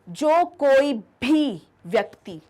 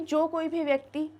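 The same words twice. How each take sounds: First: It is said with more energy and emphasis. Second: It is said in a plain, even voice. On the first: It stresses that absolutely anyone is meant. "एक और ज़्यादा जोश से वो बात कही है" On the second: It simply means whoever. "पहले मैंने नॉर्मल कही थी"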